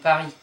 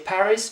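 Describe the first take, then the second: First: The final s is silent. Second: The final s is sounded. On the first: The speaker calls it right. "but you're saying Paris" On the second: The speaker calls it wrong. "you don't say Paris"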